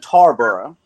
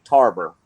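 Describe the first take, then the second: First: Said in the usual way. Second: "Tarboro" squeezed to two syllables, like TAR-ber; local Edgecombe County pronunciation. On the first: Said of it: "or as you're supposed to say it". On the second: Shown as a demonstration. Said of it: "as you're supposed to say it in Edgecombe County".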